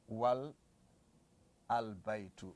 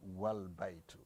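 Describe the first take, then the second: First: The article's initial vowel is pronounced separately. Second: The article's initial vowel is dropped and linked. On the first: "you can say wal al-baytu" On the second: "You just say wal baytu"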